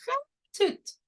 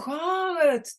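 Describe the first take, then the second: First: Every sound is articulated clearly and distinctly. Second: The sounds are slurred together and mumbled. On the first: "how I would speak clearly to a baby" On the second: "if I were speaking much less clearly"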